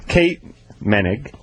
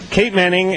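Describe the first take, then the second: First: The surname sounds like 'Menig'. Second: The surname sounds like 'Manning'. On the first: The speaker calls it right. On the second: The speaker calls it wrong.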